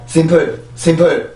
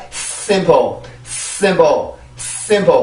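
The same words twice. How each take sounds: First: 심플 with a short, weak s and little air; weak s, wrong way. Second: 심플 with a long, airy hissed s lifting into the stressed first syllable; stretched s, then stressed vowel falling away on 심플; forceful s, right way. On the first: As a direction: say 심플 casually, without pushing air through the s. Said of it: "이게 아니라". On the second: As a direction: push lots of air through the s of 심플. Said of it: "이렇게 하면서 올라갈 수가 있죠". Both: Shown as a demonstration.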